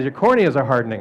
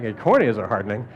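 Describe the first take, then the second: First: Said in the usual way. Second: Low, softer echo rising to a question on "hardening"; baffled echo question. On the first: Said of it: "He says". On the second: Retold or imitated. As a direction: repeat it back as a question, "hardening" lifting at the end. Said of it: "And I'm like".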